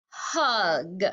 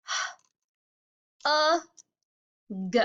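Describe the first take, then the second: First: "hug" as one falling syllable; blended word. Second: "H, a, g" as breath, held uh, short g; sounded out. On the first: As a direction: blend the sounds together into "hug". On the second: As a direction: isolate each sound of "hug" with pauses. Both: Shown as a demonstration. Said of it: "do first sound and middle sound".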